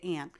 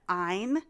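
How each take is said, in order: First: The name has the vowel of 'fan'. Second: The name has the vowel of 'fine'. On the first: "in my family, we say Ann" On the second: "Some people pronounce that Ein, like Ayn Rand"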